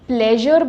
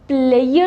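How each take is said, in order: First: The middle consonant is a buzzing zh sound. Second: The middle consonant is a glide-like y sound. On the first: The speaker calls it right. "प्लेजर बोलेंगे" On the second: The speaker calls it wrong. "हम इसको प्लेयर नहीं बोलेंगे"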